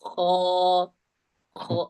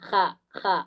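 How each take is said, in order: First: The letter is sounded heavy and thick. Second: The letter is sounded light and thin. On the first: The speaker calls it right. "ഹോയുടെ ശബ്ദം കനപ്പിക്കലായി" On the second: The speaker calls it wrong. "അതിന്റെ ശബ്ദം ഇസ്തിഅല ആവുന്നില്ല"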